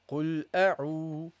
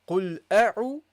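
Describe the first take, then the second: First: The vowel is held twice as long. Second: The vowel is held short. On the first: The speaker calls it right. "But now ... You make it longer" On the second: The speaker calls it wrong. "It was أعو"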